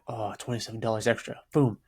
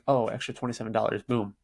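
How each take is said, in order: First: It is said with a little sigh. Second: It is said quickly, without a sigh.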